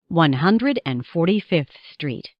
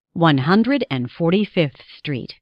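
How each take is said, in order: Both takes have the same delivery.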